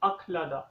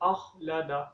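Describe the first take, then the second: First: The kh is a hard k followed by h. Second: The kh is one smooth rasping sound. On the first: The speaker calls it wrong. "काफ और मोटी हा, खा खा की आवाज़ निकालती हैं" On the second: The speaker calls it right. "खा की साउंड आनी चाहिए"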